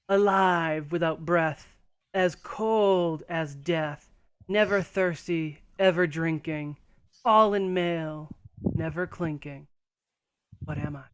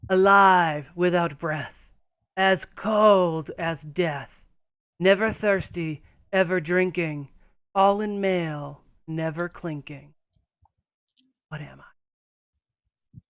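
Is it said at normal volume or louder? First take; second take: normal; louder. First: It is said at normal volume. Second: It is said louder.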